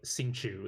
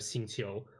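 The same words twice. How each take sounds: First: The name is said with English-style sounds. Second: The name is said with Mandarin sounds and tones. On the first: The speaker calls it wrong. "if someone says like" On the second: The speaker calls it right. "instead of"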